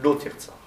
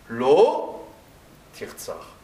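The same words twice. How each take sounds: First: The two words run together without a pause. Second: A pause separates the two words. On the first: Do not kill. "ça se dit « Lo tirtzar »" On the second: No; kill. "il y a un psik entre « Lo » et le tirtzar"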